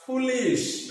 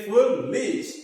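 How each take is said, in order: First: Said in the usual way. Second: Foolish said slowly, syllable by syllable; drawn-out word. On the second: Shown as a demonstration. Teacher to students, reading foolish slowly for claps. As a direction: stretch out foolish for the class.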